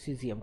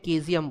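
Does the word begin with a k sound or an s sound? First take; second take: s sound; k sound. First: The word begins with an s sound. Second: The word begins with a k sound. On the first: The speaker calls it right. "প্রোনাউন্সিয়েশনটা ঠিক করেছি" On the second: The speaker calls it wrong. "ছোটবেলা আমি এটাকে কেজিয়াম বলতাম"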